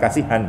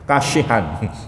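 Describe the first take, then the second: First: The middle consonant is a plain 's' sound. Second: The middle consonant is an 'sh' sound. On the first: The speaker calls it wrong. "bukan kasihan" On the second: The speaker calls it right. "namanya kashihan"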